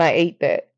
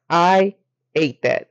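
First: Said in the usual way. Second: "I" drawn out slowly, then "ate that"; slow, deliberate stress on "I"; emphatic repeat. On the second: Real, not acted.

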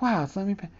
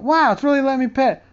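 First: Soft, held-breath wonder; quietly thrilled not to scare the cat; hushed amazement. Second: Building joy as the cat allows a second pet; delighted amazement. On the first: Telling about petting mom's cat, softly amazed. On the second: Telling about petting mom's cat, mock delighted. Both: Retold or imitated.

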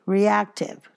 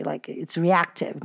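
First: Reactive set apart, higher and firmly stressed as the right word. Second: Said in the usual way. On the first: Shown as a demonstration. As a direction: hit Reactive as the correction. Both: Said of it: "not reactionary. Reactive".

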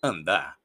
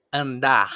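First: "Andar" said low as "andá", r dropped; "Andar" with no r sound at the end; silent final R. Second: "Andar" ending in a loud throaty h; "Andar" with a strong guttural ending; sounded final R. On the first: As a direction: end "Andar" on the open vowel. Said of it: "no la pronunciamos". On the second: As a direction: push out the final r of "Andar" as a rasp. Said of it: "Debería ser pronunciada así". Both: Shown as a demonstration.

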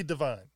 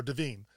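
First: Second syllable of Devine sounds like "eye" plus n; Devine rhyming with vine. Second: Second syllable of Devine sounds like "veen"; Devine rhyming with seen. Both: Shown as a demonstration. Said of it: "you know, or Devine".

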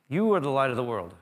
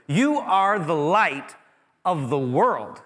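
First: Said in the usual way. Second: "You are the light of the world" stretched very slow, each word weighted, louder; slow emphatic declaration. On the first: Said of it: "He's talking to his followers". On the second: Shown as a demonstration. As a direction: proclaim it slowly, leaning on every word. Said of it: "He's like".

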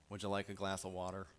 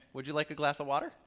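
First: Said in the usual way. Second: Loud, high, fast and grudging offer; begrudging hospitality, loud and quick; grumbling hostess. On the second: Shown as a demonstration. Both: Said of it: "Well, that sounds different".

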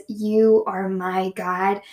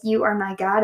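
First: Each word drawn out slowly and lovingly; a prayerful slow savoring of the words. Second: Said in the usual way. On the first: Shown as a demonstration. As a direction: linger over You are my God, very slow. Savoring her favorite psalm phrase.

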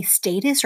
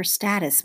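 First: "status" with a long a, as in "state"; long-a pronunciation. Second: "status" with a short a, as in "cat"; short-a pronunciation. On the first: Teacher giving another way to say it, long-a "status". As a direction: say "status" as STAY-tus. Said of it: "I say status". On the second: Teacher giving the version heard more, short-a "status". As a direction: say "status" as STAT-us. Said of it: "I think I hear status more". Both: Shown as a demonstration.

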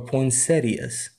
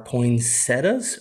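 First: Poinsettias ending in "-ee-as", four syllables; alternate pronunciation. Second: Poinsettias ending in plain "-tas", three syllables; alternate pronunciation. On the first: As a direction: say poinsettias with the i, as poin-SET-ee-as. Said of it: "how do you say it". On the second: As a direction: say poinsettias without the i, as poin-SET-as. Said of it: "not saying words right". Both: Shown as a demonstration.

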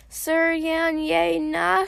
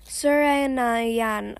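First: "Sir Yan Ye Na" sounded out slowly, higher, syllable by syllable; halting mispronunciation. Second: "Sir Yan Na Yan" said slowly in an even, natural pitch; slow pronunciation. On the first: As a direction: attempt "Sir Yan Ye Na" as an unfamiliar name, drawn out and raised. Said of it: "as she attempts to sound it out". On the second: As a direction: model "Sir Yan Na Yan" patiently, syllables drawn out. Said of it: "I say slowly". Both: A narrator's reading.

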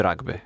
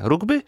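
First: „rugby” z samogłoską „a”: ragby; angielska wymowa. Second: „Rugby” z samogłoską „u”: rugby; spolszczona wymowa. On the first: („rugby” wymówione przez „a”, po angielsku) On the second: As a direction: powiedz „Rugby” po polsku, przez „u”. („Rugby” wymówione z polska, jak się pisze) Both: Shown as a demonstration. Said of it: "Jak to się powinno wymawiać?".

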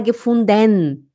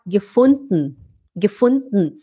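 First: "gefunden" slowly, ending in a drawn-out "denn"; full -den ending. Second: "gefunden" with the last e dropped, just a swallowed n; swallowed ending. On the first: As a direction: overpronounce the e in "gefunden". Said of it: "A gente não fala". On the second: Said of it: "É como se engolisse aqui". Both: Shown as a demonstration.

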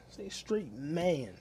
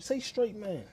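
First: Each word stretched slowly; slow and deliberate; slow, drawn out. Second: Loud, high insistence; demanding loudly; insistent demand. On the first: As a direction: spell it out slowly, like to a child. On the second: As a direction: bark it as a demand. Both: Shown as a demonstration.

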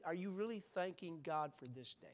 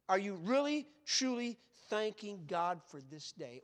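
First: Said in the usual way. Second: "really, truly" drawn out, each word hit hard; slow down and lean on "really" and "truly"; emphatic questioning. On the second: Real, not acted. Preacher challenging the congregation about their prayers, slow and emphatic.

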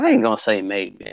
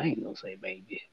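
First: Said in the usual way. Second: Whispered aside to himself; whispering. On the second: Acted. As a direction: drop to a breathy whisper. Repeats line, second take whispered.

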